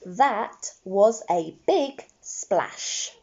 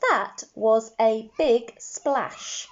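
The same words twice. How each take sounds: First: Slow model sentence. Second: Slow repeat. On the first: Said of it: "The sentence I would like to write". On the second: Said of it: "Let's say our sentence". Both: Shown as a demonstration.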